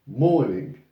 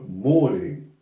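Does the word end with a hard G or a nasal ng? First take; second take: nasal ng; nasal ng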